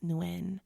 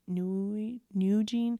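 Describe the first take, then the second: First: The surname ends without a 'jent' sound. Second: The surname ends with a 'jent' sound. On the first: The speaker calls it right. "I found out her the pronunciation is Pauline Nguyen" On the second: The speaker calls it wrong. "I called her Pauline Nugent last week"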